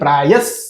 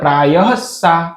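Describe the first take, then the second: First: The word ends sharply on the s sound. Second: The word ends with an added vowel after s. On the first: The speaker calls it right. "આપણે બોલીએ છીએ પ્રાયસ, તરત જ સ આવી જાય છે" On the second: The speaker calls it wrong. "આપણે એમ નથી કહેતા પ્રાયસા, એમ નથી બોલતા"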